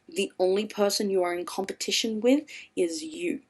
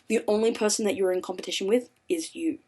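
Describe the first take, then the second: First: It is said very slowly. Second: It is said at normal speed.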